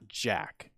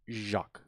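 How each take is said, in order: First: It is said like the English word jack. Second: It is said with a French zh sound. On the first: The speaker calls it wrong. "It's not Jack" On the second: The speaker calls it right. "It's Jacques. Get it right"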